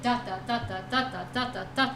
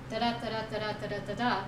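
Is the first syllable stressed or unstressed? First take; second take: stressed; unstressed. First: The first syllable is stressed, the second weak. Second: The first syllable is weak, the second stressed. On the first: "it's the inversion of those syllables" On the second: "instead of"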